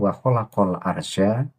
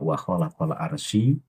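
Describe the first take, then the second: First: The last word ends with a final a-vowel. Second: The last word ends without a final a-vowel. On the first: The speaker calls it right. "Yang benar al arsya" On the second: The speaker calls it wrong. "Pak Lutfi membaca ... itu juga salah"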